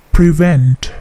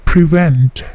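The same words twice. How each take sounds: The two takes are said the same way.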